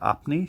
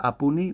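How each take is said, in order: First: Said in the usual way. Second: "apuni" with an extra u in the middle; "apuni", sounding the u between p and n; extra vowel. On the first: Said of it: "she doesn't say apni". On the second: Shown as a demonstration. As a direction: say "apuni" in three syllables, a-pu-ni. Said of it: "she says apuni, which is very strange".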